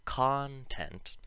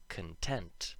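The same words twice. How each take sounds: First: Content said KON-tent, short O, stress on the first syllable; noun content. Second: Content with a schwa, kun-TENT, stress on the second syllable; schwa con. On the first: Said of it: "If the first syllable was emphasized, like in the noun". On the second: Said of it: "let's have a look at content, the adjective". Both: Shown as a demonstration.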